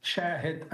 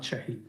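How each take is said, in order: First: Shahid as SHAA-hid, first syllable stressed; correct name pronunciation. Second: Shahid as sha-HEED, second syllable stressed; mistaken name pronunciation. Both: Shown as a demonstration. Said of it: "his name's pronunciation".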